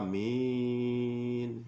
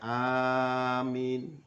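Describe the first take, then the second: First: Both vowels are drawn out long. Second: The first vowel is long, the second short. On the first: "Membaca panjang semua" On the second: "A-nya panjang, min-nya pendek"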